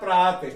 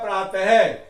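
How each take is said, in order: First: The word ends without a breathy h sound. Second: The word ends with a breathy h sound. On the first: "जैसे पढ़ते ये बोलेगा प्रात" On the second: "यहाँ पर है की ध्वनि सुनाई दे रही है"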